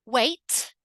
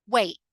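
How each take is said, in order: First: "Wait" with a released T; crisp ending on "Wait"; full T. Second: "wait" as "way'"; glottal T. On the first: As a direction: sound the final T in "Wait". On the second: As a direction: cut the final T in "wait". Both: Shown as a demonstration. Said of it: "in the two different ways".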